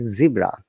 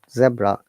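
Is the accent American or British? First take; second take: American; British. First: It is said in an American accent. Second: It is said in a British accent. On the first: "American English and Canadian English they uh, pronounce it zebra" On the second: "in British English we call it zebra"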